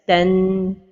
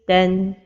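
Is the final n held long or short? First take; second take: long; short. First: The final n is held for a long time. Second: The final n is held only briefly. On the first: The speaker calls it wrong. "give a lot of time to the noon at the end" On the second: The speaker calls it right. "the right pronunciation is ten"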